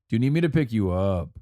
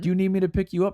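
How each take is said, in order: First: The voice does not rise at the end. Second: The voice rises at the end. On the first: "In Greece, in, in the Greek language, we ask, like" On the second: "The question kind of goes up at the end of it"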